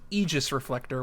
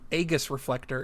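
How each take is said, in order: First: Aegis has the plainer, standard pronunciation. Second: Aegis has the cooler-sounding, nonstandard pronunciation. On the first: The speaker calls it right. "it should be Aegis Reflector, which sounds super dumb" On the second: The speaker calls it wrong. "the way cooler sounding version of the name"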